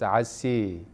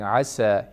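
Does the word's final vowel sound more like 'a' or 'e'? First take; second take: e; a. First: The final vowel leans toward an 'e' sound. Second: The final vowel is an open 'a' sound. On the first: It follows a less common recitation method. "he says Asi, Asi, which is Imala" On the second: It follows the most common recitation method. "Instead of saying Asa"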